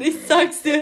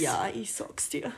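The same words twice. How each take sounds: First: Loud. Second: A hushed, unvoiced whisper of "ich sag's dir"; slow breathy aside, half joking. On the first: Pretend. Joking about bad Bavarian. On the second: Whispering back to her co-host in mock Bavarian.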